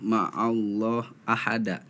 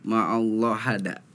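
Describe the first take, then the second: First: The vowel before hada is clearly heard. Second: The vowel before hada is dropped.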